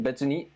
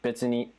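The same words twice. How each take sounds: First: The word is said in a soft, gentle way. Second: The word is said in a short, blunt way. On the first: It's fine, no problem. The speaker calls it right. "But if you say it like mm" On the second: The speaker doesn't really care. The speaker calls it wrong. "it can kind of be a little blunt, like betsuni"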